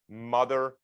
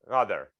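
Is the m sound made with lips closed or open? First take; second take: closed; open. First: The lips close fully for the m sound. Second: The lips stay apart for the m sound. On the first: "Notice that my mouth... has to close" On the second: "without closing your mouth"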